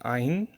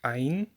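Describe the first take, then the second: Both takes have the same delivery.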